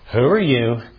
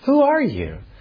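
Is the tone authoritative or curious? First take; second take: authoritative; curious. First: The question sounds firm and authoritative. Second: The question sounds light and curious. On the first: The asker demands an account with authority. The speaker calls it right. "There's an authority that they're trying to express" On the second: The asker simply wants to know. The speaker calls it wrong. "maybe they ask in a very curious kind of way"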